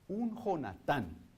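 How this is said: The name is said with a Spanish pronunciation. "en el buen castellano"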